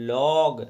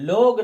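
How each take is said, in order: First: The vowel is an open 'aw' sound. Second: The vowel is a closed 'oh' sound. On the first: The speaker calls it right. "पढ़ के लॉग" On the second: The speaker calls it wrong. "लोग ना पढ़ के"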